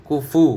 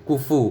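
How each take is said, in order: The two takes are said the same way.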